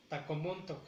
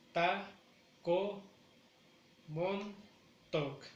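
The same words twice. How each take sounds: First: Said in the usual way. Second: "Taco Montauk" as four beats with pauses; ta, co, mon, tauk, each on its own; slow, separated "Taco Montauk"; syllable by syllable. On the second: Shown as a demonstration. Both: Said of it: "Esa no la he pronunciado".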